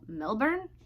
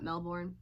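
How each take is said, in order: First: It is said in an Australian accent. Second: It is said in an American accent. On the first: The speaker calls it right. "if you're Australian though, it's Mel- Melbourne?" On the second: The speaker calls it wrong. "Not Melbourne?"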